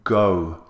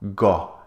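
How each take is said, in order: First: The vowel glides between two sounds with rounded lips. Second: The vowel is one flat sound without lip rounding. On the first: The speaker calls it right. "It should be rounded lips and two vowel sounds" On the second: The speaker calls it wrong. "Don't say uh, go"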